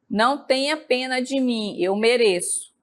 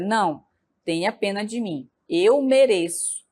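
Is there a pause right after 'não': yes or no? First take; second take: no; yes. First: It flows without a pause after 'não'. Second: There is a pause right after 'não'.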